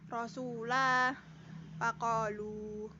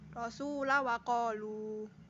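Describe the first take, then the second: First: The vowel after the l is long. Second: The vowel after the l is short. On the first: "Waqaf lam panjang" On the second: "wasal lam pendek"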